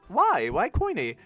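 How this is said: It sounds curious and inquiring.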